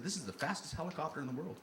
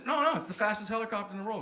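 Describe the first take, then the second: First: Said in the usual way. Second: Higher-pitched, emphatic correction; insistent. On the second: Retold or imitated. Pilot corrects a doubting passenger, insistent.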